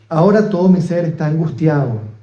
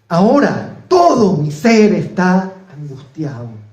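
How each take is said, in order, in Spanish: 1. Se lee de forma sencilla y más tranquila. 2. Se lee con una entonación más fuerte y enérgica. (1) "Lo vuelvo a leer" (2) "Vamos a darle una entonación un poquito más fuerte"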